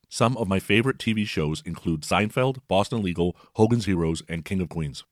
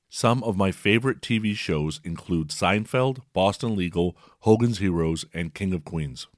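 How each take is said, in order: First: The speech plays a bit faster than normal. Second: The speech plays at its normal speed. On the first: "Here's the same message at 1.25x" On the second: "here's a few seconds at regular speed"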